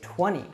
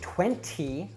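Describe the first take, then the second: First: The T after the N is dropped. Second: The T after the N is pronounced. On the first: The speaker calls it right. "Americans will usually drop the T" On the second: The speaker calls it wrong. "usually we don't say twenty"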